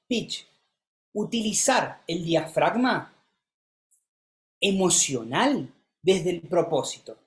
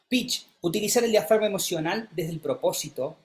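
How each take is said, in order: First: The speed changes, with the ending said faster. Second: It is said at one steady speed and tone. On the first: The speaker calls it right. "cuando dije desde el propósito, lo dije más rápido" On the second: The speaker calls it wrong. "en un mismo tono de voz, en una misma velocidad"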